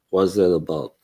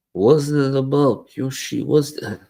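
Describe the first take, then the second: First: Said in the usual way. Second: Higher, mock Russian accent asking Yoshi; a light Russian accent as Putin, pitched up. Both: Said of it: "I'm now Putin".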